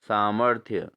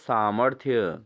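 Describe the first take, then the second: First: The r sound comes after the m. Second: The same.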